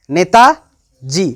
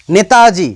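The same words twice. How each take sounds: First: Netaji very slow, with a long pause between নেতা and জি; split into parts. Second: Said in the usual way. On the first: Shown as a demonstration. Teacher showing students word units, Netaji pulled apart by a pause. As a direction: break Netaji into নেতা, then a separate জি. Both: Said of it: "আবার আমি যদি বলি".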